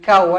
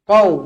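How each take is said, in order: First: It starts with a plain k sound. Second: It starts with a deep back q sound. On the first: The speaker calls it wrong. "bukan kau" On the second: The speaker calls it right. "Q O U"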